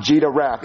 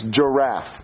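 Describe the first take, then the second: First: "giraffe" said as "jee-duh-raff"; imitated mispronunciation. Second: "giraffe" said cleanly as "juh-raff"; correct pronunciation demo. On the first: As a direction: mimic the extra D in "giraffe". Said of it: "No, it's not giraffe". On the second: Shown as a demonstration. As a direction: model "giraffe" with no D, low and firm. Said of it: "It's giraffe".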